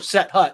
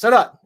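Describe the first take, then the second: First: It is said as two separate words. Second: It is run together quickly as one word.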